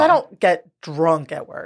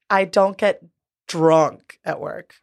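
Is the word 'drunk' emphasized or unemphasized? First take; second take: unemphasized; emphasized. First: The word drunk is not specially emphasized. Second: The word drunk is specially emphasized.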